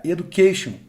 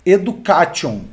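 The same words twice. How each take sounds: First: Education said "e-du-KAY-shon", English sounds; correct English education. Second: Education said "e-du-ka-CHOH", Portuguese sounds; Brazilian Education. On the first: Teacher gives students the correct English education. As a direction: say education the American way. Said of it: "maneira correta de comunicar essa palavra é". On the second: Teacher shows the Brazilian reading of Education. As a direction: read Education as a Brazilian would. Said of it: "Como que um brasileiro vai falar". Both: Shown as a demonstration.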